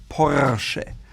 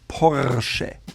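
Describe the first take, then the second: Both takes have the same delivery.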